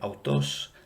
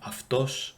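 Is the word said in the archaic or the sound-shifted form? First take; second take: archaic; shifted. First: The word is said with the older, unshifted vowel. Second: The word is said with the sound-shifted vowel. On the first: "permissible in Lucian pronunciation as a more archaic variant" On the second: "this sound shift would have happened"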